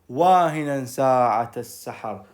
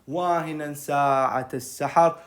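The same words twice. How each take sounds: No difference in how they are said.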